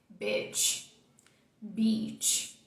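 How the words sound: The words are said with a straight face. "Agora eu vou falar as duas séria"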